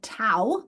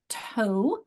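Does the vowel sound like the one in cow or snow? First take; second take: cow; snow. First: The vowel sounds like the one in cow. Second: The vowel sounds like the one in snow. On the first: "because O W is saying owl like in cow" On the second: "because O W is saying O like in snow"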